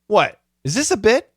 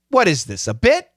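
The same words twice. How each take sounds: First: The pause comes after "what". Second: The pause comes after "this". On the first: "we have another way of saying it too" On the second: "she does pause here"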